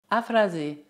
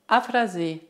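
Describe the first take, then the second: No difference in how they are said.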